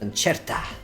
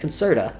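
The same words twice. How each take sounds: First: It is said like the music word concerto. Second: It is not said like the music word concerto. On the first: "Like a music" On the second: "Not Concerta"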